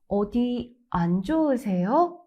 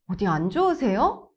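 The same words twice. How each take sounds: First: A short pause follows the first word, then smooth. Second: The pitch rises sharply at the end. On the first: The speaker shows care for the listener. The speaker calls it right. "Small pause after 어디, light stress on 안, then say 안 좋으세요 smoothly in one breath" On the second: It sounds like starting a fight. The speaker calls it wrong. "If you raise your tone too sharply at the end"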